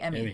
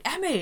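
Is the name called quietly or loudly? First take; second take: quietly; loudly. First: The name is called faintly and quietly. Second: The name is called out loudly.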